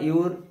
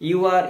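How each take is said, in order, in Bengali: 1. You are একসাথে জুড়ে একটি সিলেবল হিসেবে বলা হয়। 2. You are পূর্ণ দুটি শব্দ হিসেবে বলা হয়।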